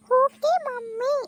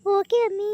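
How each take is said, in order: First: Put-on ಓಕೆ ಮಮ್ಮಿ slowly and clearly, high girlish; correct English demo. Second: ಓಕೆ ಅಮ್ಮಿ said as mother mangles okay mummy; mother tries English and says ಓಕೆ ಅಮ್ಮಿ; mother's wrong English. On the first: Shown as a demonstration. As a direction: spell out ಓಕೆ ಮಮ್ಮಿ for mom to copy. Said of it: "ನೀನು ಹೇಳು, ಇನ್ನೊಂದ್ಸಲ ಹೇಳು". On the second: Acted. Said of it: "ಏಕ್ ಓಕೆ ಅಮ್ಮಿ ಅಂತದಲ್ಲವ".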